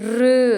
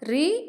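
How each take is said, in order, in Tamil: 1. இந்த அசை 'oo' போன்ற உயிரில் முடிகிறது. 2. இந்த அசை 'ee' போன்ற உயிரில் முடிகிறது. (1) "இதை வந்து நம்ம ருன்னு சொல்லணும்" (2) "இப்போ எல்லாருமே ரீன்னு சொல்றாங்க. ஆனா அது பேச்சு வழக்கில் ரீனும் சொல்லலாம்"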